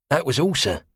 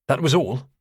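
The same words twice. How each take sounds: First: High cockney sailor voice; wary cockney quartermaster answering; cockney accent. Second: Said in the usual way. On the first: Acted. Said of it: "saturnine cockney".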